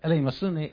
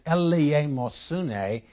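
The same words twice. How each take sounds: First: The word is said quickly. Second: The word is said at a normal pace.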